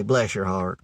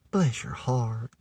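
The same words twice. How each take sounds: First: Said in the usual way. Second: Soft, slow "bless your heart" with "heart" long drawn out. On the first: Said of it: "down south we say". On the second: Shown as a demonstration. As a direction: stretch "heart" out sweetly and slowly. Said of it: "longer word heart's drawn out".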